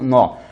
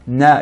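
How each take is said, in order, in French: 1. La syllabe est épaisse et lourde. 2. La syllabe est fine et légère. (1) "et non Na" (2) "de manière amincie"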